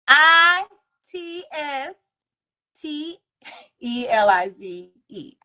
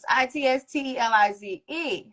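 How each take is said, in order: First: The letters are spelled out slowly. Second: The letters are spelled out fast.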